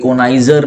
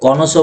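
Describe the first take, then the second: First: It has an 'eye' sound and ends 'zer'. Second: It ends in a soft 'so' sound. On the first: The speaker calls it wrong. "कोनाइजर नहीं" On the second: The speaker calls it right. "कॉनोसो बोलते हैं"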